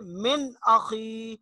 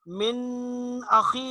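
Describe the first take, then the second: First: The n is released quickly and clearly. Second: The n is lengthened with a nasal hum. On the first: The speaker calls it right. "बल्कि जल्दी से पढ़ेंगे" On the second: The speaker calls it wrong. "यहां देर नहीं लगाएंगे, गुन्ना नहीं करेंगे, मिन अखी नहीं पढ़ेंगे इसको"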